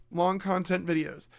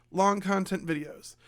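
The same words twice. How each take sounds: The two takes are said the same way.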